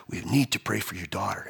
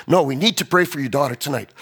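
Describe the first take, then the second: First: Soft, low, discreet request; hushed urging. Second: Firm, full-voiced urging; acted insistence. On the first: Retold or imitated. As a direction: urge it quietly, under the service. Note passed discreetly to pastor. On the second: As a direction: press the request, no longer hushed. The request repeated insistently.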